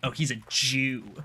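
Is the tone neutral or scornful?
scornful. It is said in a scornful, disparaging tone. It is meant as an insult. "now it's a problem"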